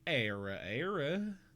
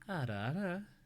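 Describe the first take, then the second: First: It is said in a Southern American accent. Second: It is said with a rolled tongue. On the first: "if you do it in a southern accent" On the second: "it's a tongue roll"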